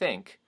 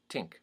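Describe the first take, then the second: First: The word starts with a voiceless TH. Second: The word starts close to a T. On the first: "the voiceless th" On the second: "something closer to a T sound"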